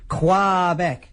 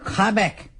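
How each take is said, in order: First: It uses the pronunciation the locals dislike. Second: It uses the pronunciation the locals like. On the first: The speaker wants the crowd to boo. "because they really hate it" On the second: The speaker wants to please the crowd. "as I hear they love it"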